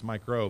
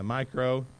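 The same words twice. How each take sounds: First: The name is said fast, run together. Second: The name is said slowly, words apart.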